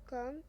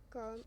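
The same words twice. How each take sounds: First: "Calm?" rising and louder; echo question. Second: Said in the usual way. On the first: A narrator's reading. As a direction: throw "Calm?" back as a question. Friend echoes it in disbelief.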